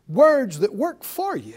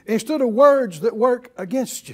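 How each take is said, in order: First: Slow, with "for" punched; stress on for. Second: "against" leaned on as the contrast; stress on against. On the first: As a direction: lean hard on "for" to set up a contrast. Sets for against against. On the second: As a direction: land the weight on "against". Answers the for with against. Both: Real, not acted.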